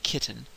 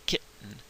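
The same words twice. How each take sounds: First: The T is fully pronounced and released. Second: The T is a catch in the throat. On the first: "it sounds a little little formal, a little stuffy" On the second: "stop the sound in, in the back of your throat"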